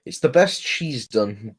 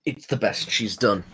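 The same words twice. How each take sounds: First: "best" stressed, stretched out slowly. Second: "best she's done" said lower, with "best" no longer punched; qualifying repeat. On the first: Conceding faint praise for her episode, stress on "best". Same words repeated for contrast. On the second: Qualifying the faint praise of her episode, lowered "best she's done". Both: Real, not acted.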